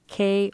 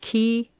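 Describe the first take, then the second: First: The word sounds like 'kay'. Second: The word sounds like 'key'. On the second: "It can be pronounced key"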